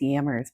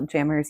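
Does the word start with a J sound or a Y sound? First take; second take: Y sound; J sound. First: The word begins with a Y sound. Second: The word begins with a J sound.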